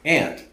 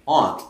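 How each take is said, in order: First: Aunt is said the way Kansans say it. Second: Aunt is said the way Minnesotans say it.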